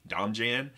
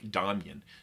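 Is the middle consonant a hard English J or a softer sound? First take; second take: hard J; softer. First: The middle consonant is a hard English J. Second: The middle consonant is not a hard J. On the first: The speaker calls it wrong. "you might be tempted to pronounce it Domjan" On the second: The speaker calls it right. "knows how it's properly pronounced"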